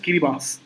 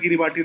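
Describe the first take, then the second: First: The name ends with an s sound. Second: The name ends with a ti sound. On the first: This is the actual local pronunciation. The speaker calls it right. "It is pronounced as കിരിബാസ്" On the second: This follows the written spelling. The speaker calls it wrong. "കിരിബാട്ടി എന്നാണ് പറയാം"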